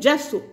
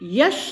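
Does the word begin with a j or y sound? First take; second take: j sound; y sound. First: The word begins with a j sound. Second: The word begins with a y sound. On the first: The speaker calls it right. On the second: The speaker calls it wrong. "जस को यश नहीं है"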